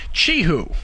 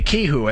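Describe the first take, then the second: First: The word begins with a ch sound. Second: The word begins with a hard k sound. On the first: The speaker calls it right. "like C H, you know, that C H sound" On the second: The speaker calls it wrong. "like with a K"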